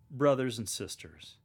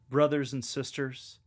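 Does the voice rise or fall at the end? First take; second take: fall; rise. First: The voice falls at the end. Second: The voice rises at the end.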